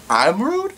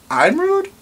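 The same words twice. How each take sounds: First: Rising disbelieving question; mock offended disbelief; hurt surprise; incredulous. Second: Much higher squeaky I'm rude; mock scandalized; outraged disbelief. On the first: Incredulous at being called rude. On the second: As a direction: pitch up in shocked outrage. Repeated, even higher.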